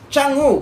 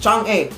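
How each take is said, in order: First: The name is said with a Chinese pronunciation. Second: The name is said with a Filipino pronunciation. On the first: "Ang pagbasa po nito sa Chinese ay Chang'u" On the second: "binabasa ko ito is Chang'e kasi Filipino po tayo eh"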